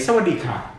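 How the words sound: It is said with a foreign, English-like melody. The speaker calls it wrong. "That's the Falang version"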